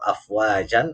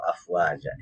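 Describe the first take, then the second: First: The word ends with a clear n sound. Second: The word ends on a lengthened a vowel. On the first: The reading continues into the next word. "Karena ada tanwin" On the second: The reader stops at this word. "Kalau dibaca mati, maka ini dihukumi mad iwad"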